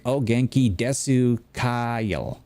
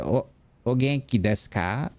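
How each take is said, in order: First: Slow mock-Southern beginner Japanese; southern accent. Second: Put-on native-style Japanese accent, last vowels cut; copying Japanese teacher. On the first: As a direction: stretch every vowel in a Southern accent. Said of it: "in a southern accent". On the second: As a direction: imitate the teacher's nasal Japanese pronunciation. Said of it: "copying how she was saying it".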